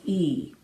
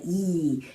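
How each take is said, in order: First: E with lips brought in, tall north-south shape; a tall, rounded E as the right example. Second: E with the lips pulled wide and flat; a wide, spread E as the wrong example. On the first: Teacher demonstrating the corrected tall E vowel. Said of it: "more north-south vowels". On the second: Teacher demonstrating a spread E vowel. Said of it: "Sometimes E's can get very spread". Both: Shown as a demonstration.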